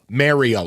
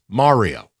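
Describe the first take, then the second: First: The first syllable sounds like 'merry'. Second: The first syllable does not sound like 'merry'. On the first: The speaker calls it wrong. "It's not spelled M E R R Y O, Mario, like Jello" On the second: The speaker calls it right. "It's Mario"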